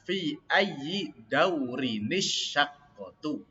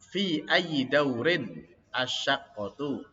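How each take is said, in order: First: The last two words run together with a linking vowel. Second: The last two words are said separately, unlinked. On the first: "Kalau dibaca nyambung" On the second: "Itu kalau dibaca terputus ya"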